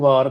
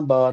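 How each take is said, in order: First: The word begins with a 'v' sound. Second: The word begins with a 'b' sound. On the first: The speaker calls it right. "ਏਕ ਵਾਰ ਨੂੰ ਵਾਰ ਕਹਿਣਾ" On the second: The speaker calls it wrong. "ਬਾਰ ਨਹੀਂ ਕਹਿਣਾ"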